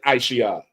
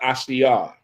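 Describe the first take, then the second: First: The name begins with an 'eye' sound. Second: The name begins with an 'ash' sound. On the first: The speaker calls it wrong. "Not don't say Aisha" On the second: The speaker calls it right. "that's how you say it"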